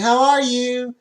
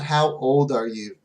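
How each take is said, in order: First: "How are you?" high and loud, with the stress on "are"; clear model question. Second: Said in the usual way. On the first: Shown as a demonstration. Teacher modelling the right question, high and clear. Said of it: "Make sure they hear it clearly".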